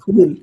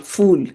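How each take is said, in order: First: The word begins with a breathy p sound. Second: The word begins with an f sound. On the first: The speaker calls it right. "There is no fa in Hindi. It's phal, fool" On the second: The speaker calls it wrong. "the mistake of saying fal, fool"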